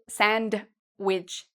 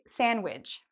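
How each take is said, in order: First: A D sound is heard in the middle. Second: No D sound is heard in the middle. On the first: The speaker calls it wrong. "you don't need to say sandwich" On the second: The speaker calls it right. "We say sandwich. So the D is silent"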